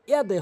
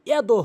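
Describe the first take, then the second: First: ইয়াদে ending in an e, not o; correct pronunciation. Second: ইয়াদো ending in a rounded o; wrong pronunciation. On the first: Teacher corrects learners to ইয়াদে, correct pronunciation. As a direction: say ইয়াদে with an e vowel on de. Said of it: "ইয়াদে হবে". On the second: Teacher shows learners the mistake ইয়াদো, wrong pronunciation. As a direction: say ইয়াদো with o instead of e. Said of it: "ইয়াদো হবে না". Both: Shown as a demonstration.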